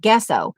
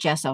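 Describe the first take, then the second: First: It begins with a hard g sound. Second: It begins with a soft j sound. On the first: "how you're supposed to pronounce gesso, like in Guess Who" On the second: "I just kind of conformed and just call it gesso now"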